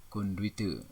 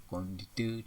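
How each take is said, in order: First: "Konduite" with the U sounded, kon-du-i-te; careful "Konduite" with u-i glide; standard pronunciation. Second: "Kondite" without the U; "Kondite" in three syllables; nonstandard pronunciation. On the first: Teacher models standard word, full "Konduite". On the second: Teacher shows wrong form, shortened "Kondite". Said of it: "tidak baku". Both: Shown as a demonstration.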